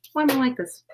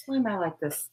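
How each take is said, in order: First: Higher repeat. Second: Quiet self-despair. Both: Real, not acted.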